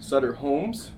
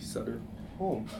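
First: The name ends with an s sound. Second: The name ends without an s sound. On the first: The speaker calls it wrong. "I've been pronouncing it wrong for 3 years" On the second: The speaker calls it right. "it's actually Sutter Home"

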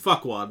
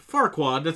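First: No R sound follows the first vowel. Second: An R sound follows the first vowel. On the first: "you take that R sound out" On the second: "if you say his name"

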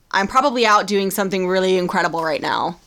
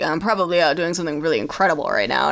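First: It is said in the speaker's normal voice. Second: It is said in a low, deep put-on voice.

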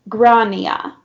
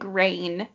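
First: The name is said in an Irish way. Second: The name starts like the English word grain. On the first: The speaker calls it right. "The correct Irish pronunciation is Grania" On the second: The speaker calls it wrong. "I was saying grain, me, my stupid American accent"

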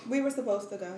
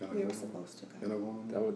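First: The voice is at its ordinary speaking pitch. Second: The voice is moved to a different pitch. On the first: "But your tone was like that" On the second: "Let me change my octave then"

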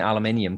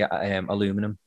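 First: It is said in the speaker's home accent. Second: It is said in a North American accent. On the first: "There's no point me saying aluminium because they'll laugh at me" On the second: "I now say it the way they say it here"

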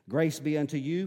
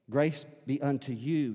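First: It is read quickly. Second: It is read slowly.

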